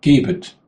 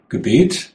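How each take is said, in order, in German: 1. Die Betonung liegt auf der ersten Silbe. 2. Die Betonung liegt auf der zweiten Silbe. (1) "Aber wenn man es anders betont" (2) "Gebet, sagt man, da merkt man nicht, worum es eigentlich geht"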